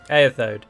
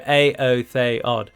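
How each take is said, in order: First: The opening vowels blend into one diphthong. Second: The opening E is a separate, independent sound. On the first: The speaker calls it wrong. "I used to call them um, Eothode, but it, it's just not pronounced that way" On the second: The speaker calls it right. "it is not a diphthong and it is a, an independent sound. So Aotheod"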